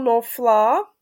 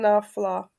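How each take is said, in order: First: The first vowel is o, final syllable stressed. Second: The first vowel is a, not o. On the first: "když by tam nebyl ten metek, tak by bylo nofla, protože by byla pod přízvukem ta slabika koncová" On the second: "ale takhle je náflá"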